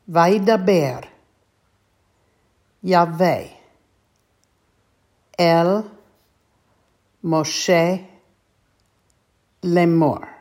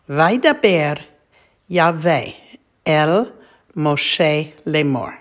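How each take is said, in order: First: The phrase is read at a slow pace. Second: The phrase is read at a faster pace. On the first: "I'll read it slowly" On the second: "this time we'll read it a little bit more quickly"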